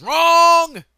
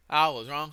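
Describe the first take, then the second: First: High, drawn-out shout on wrong; sudden yelling. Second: Said in the usual way. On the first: Acted. Speaker admitting the methane mistake, sudden stretched yell. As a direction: yell it, stretching the last word way up. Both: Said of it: "Sorry for yelling".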